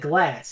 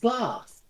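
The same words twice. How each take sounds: First: The vowel is a flat American 'a'. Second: The vowel is a long British 'ah'. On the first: This is how an American would say it. "She doesn't say glass like an American would" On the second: This is how the actress actually says it. "She says glass"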